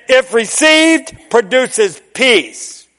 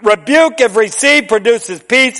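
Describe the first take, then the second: First: Each word slowed and weighted; slow emphatic. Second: Rebuke, if received, produces peace pressed hard; emphatic. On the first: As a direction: spell it out for the congregation. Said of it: "let me say it again". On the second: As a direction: punch Rebuke then land the point. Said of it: "But I'm gonna tell you something". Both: Shown as a demonstration.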